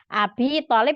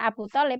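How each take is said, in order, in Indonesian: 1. Kata pertama berakhir dengan vokal 'i'. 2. Kata pertama berakhir dengan vokal 'u'. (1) "jadi Abi Thalib" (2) "bukan Abu Thalib"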